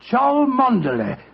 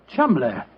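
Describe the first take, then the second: First: The name is said long, in four syllables. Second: The name is said short, in two syllables. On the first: This is how the name looks from its spelling. "Chow, Mon, Der" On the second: This is how the name is really said. "the name Chumley is in no way pronounced the way it is spelt"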